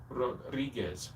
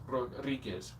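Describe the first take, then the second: No difference in how they are said.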